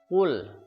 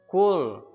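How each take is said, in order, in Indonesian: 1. Diawali Q yang dalam, bibir membulat. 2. Diawali bunyi K biasa, ada hembusan udara. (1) "Mulutnya manyun" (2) "salah mengucapkan seperti ini, kul ... kul huruf K ... ada udara yang keluar"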